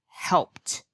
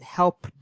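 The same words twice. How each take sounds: First: The word ends with a T sound. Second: The word ends with a D sound. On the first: The speaker calls it right. "I said it's a T sound" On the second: The speaker calls it wrong. "try to go to a D sound, which we know is not correct"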